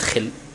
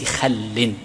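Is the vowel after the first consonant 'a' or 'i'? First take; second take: i; a. First: The first vowel is an 'i' sound. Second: The first vowel is an 'a' sound. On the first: The speaker calls it wrong. "ولكن جعلها بالكسر خطأ" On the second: The speaker calls it right. "بفتح الخاء بثنية خل"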